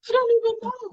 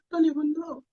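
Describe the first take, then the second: First: Upset and lost. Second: Said in the usual way. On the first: Retold or imitated. Retold crying at the GP.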